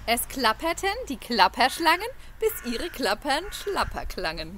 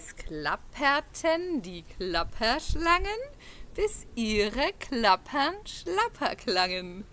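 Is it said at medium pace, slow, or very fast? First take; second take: medium; slow. First: It is said somewhat faster. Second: It is said at a slow pace.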